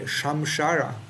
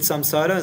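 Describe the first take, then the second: First: The consonants are sh sounds. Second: The consonants are plain s sounds. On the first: The speaker calls it wrong. "Sometimes in India they may say shamshara, but that's not correct" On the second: The speaker calls it right. "the same thing with samsara"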